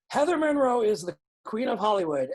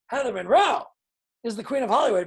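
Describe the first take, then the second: First: It is said in the speaker's plain everyday voice. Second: It is said in a put-on, showy character voice. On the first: "I could just say that" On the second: "that's how Halston would say it"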